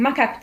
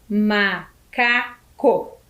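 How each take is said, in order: First: Said in the usual way. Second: MACACO slowly split into MA, CA, CO; syllable by syllable. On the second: Shown as a demonstration. Teacher counts syllables for pupils, split syllable by syllable. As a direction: count out MACACO with a pause after each syllable. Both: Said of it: "O macaco tem quatro sílabas?".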